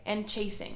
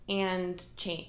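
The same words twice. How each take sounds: First: Said in the usual way. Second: And cha- broken off mid-word; tongue-tied stumble. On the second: Real, not acted. Host tripping over a word while recording her podcast, broken-off stumble. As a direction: trip over "cha-" and stop short. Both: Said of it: "See, can't speak today".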